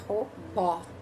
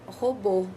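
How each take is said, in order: First: The final vowel is open, mouth wide. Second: The final vowel is closed, lips rounded.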